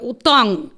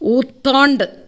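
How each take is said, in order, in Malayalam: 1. ഈ വാക്ക് 'ng' ശബ്ദത്തിലാണ് അവസാനിക്കുന്നത്. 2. ഈ വാക്ക് 'nd' ശബ്ദത്തിലാണ് അവസാനിക്കുന്നത്. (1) "ഊത്താങ് എന്നാണ് പറയേണ്ടത്" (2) "ഊത്താണ്ട് എന്ന് പറഞ്ഞു"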